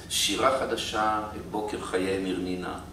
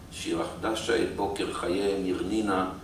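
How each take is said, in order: No difference in how they are said.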